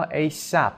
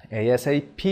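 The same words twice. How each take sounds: First: اِی سَپ as one word, "ay-sap". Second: اِی اس اِی پی as four separate letter names; name each letter in اِی اس اِی پی; spelled out. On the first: Teacher showing learners the one-word reading, "ay-sap". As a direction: run اِی سَپ together as a single word. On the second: Teacher showing learners an abbreviation read letter by letter. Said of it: "گاهی هم به صورت یک کلمه". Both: Shown as a demonstration.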